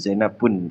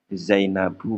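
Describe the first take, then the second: First: The word ends with an added n sound. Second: The word ends in a plain vowel. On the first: The speaker calls it wrong. "bukan Zainabun" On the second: The speaker calls it right. "Zainabu bukan Zainabun"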